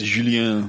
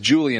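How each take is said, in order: First: The name is said with a French pronunciation. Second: The name is said with an English pronunciation. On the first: The speaker calls it right. "It's the fucking French" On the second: The speaker calls it wrong. "it's not just Julian"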